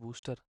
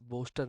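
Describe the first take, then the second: First: The first vowel sounds like 'oo'. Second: The first vowel sounds like 'oh'. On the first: The speaker calls it right. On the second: The speaker calls it wrong.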